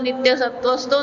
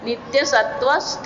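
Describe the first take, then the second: First: The last word ends in an o vowel. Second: The last word does not end in o. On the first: The whole verse line is recited without a break. "આખી આખી પંક્તિ બોલીએ તો સીધું જ બોલવાનું" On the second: The verse is split and recitation stops here. "તો નિત્ય સત્વસ્થો નહીં બોલાય"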